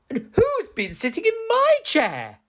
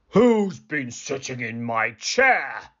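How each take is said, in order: First: It is said in a medium voice. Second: It is said in a deep, gruff voice.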